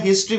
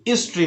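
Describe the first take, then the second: First: "हिस्ट्री" with the h sounded; right demo: "हिस्ट्री" opening with h; correct pronunciation. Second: "हिस्ट्री" with silent h, "istry"; regional h-less pronunciation. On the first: Shown as a demonstration. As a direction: start "हिस्ट्री" on an audible h. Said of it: "हिस्ट्री बोलना है". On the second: Retold or imitated. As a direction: say "हिस्ट्री" starting on the vowel "i". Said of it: "कुछ देशों में इसको भी हिस्ट्री बोलते हैं".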